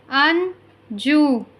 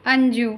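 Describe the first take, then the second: First: Very slow, stretched Anju; slow careful model word. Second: Said in the usual way. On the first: Shown as a demonstration. Teacher modelling Anju slowly for listening pupils. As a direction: draw out Anju for the class. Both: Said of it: "listen to your teacher say the following words".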